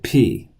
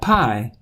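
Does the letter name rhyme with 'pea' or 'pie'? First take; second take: pea; pie. First: The vowel is pronounced like 'ee'. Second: The vowel is pronounced like 'eye'. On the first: The speaker calls it right. "but P" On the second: The speaker calls it wrong. "not pi"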